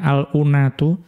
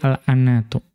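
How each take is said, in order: First: The vowel after the hamza is not 'a'. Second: The vowel after the hamza is 'a'. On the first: The speaker calls it wrong. "Jadi bukan al-unatu" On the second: The speaker calls it right. "dengan memfathahkan hamzah"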